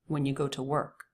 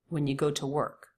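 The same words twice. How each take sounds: First: 'You' is reduced; 'to' has a flap T. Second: 'You' has a full vowel; 'to' has a true T. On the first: The speaker calls it right. "More natural, the second one. I'm reducing you to y, and I'm definitely putting in a flap T" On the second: The speaker calls it wrong. "once like him"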